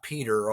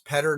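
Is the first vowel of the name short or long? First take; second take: long; short. First: The first vowel is long, like 'peat'. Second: The first vowel is short, like 'pet'. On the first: "not Peter" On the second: "it's Petter"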